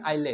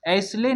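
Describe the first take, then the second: First: No s sound is pronounced in the word. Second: An s sound is pronounced in the word. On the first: The speaker calls it right. "क्योंकि एस silent है" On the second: The speaker calls it wrong. "ऐसले नहीं पढ़ेंगे"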